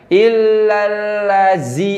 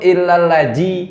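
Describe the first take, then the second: First: The consonant is a buzzing z sound. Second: The consonant is a j sound. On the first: "bukan jadi berarti bukan illalazi" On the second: "itu pakai jim"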